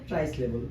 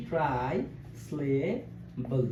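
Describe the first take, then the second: First: Said in the usual way. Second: ট্রাইসিলেবল very slow, split ট্রাই, স্লে, বল; long pauses inside ট্রাইসিলেবল; low, soft ট্রাইসিলেবল, part by part; syllable by syllable. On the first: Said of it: "কি syllable বলছি?". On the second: Shown as a demonstration. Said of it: "ভাগ ভাগ করে উচ্চারণ".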